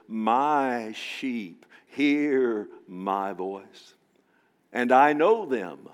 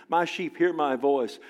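First: Very slow, drawn-out My sheep hear my voice; tender Jesus. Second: Said in the usual way. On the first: Acted. Preacher voicing Jesus about his sheep, slow and tender. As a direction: savour each word gently. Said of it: "he says". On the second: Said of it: "I have a personal relationship".

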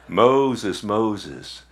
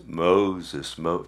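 First: Said in the usual way. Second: A hint of a deep, booming movie God; lightly put-on solemn divine call; Charlton Heston voice. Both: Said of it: "that sound like Charleston Heston".

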